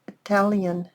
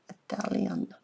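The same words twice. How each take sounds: First: Said in the usual way. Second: Whispered. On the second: Real, not acted. Repeats the word under her breath.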